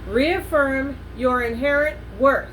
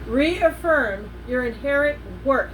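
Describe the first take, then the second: The two takes are said the same way.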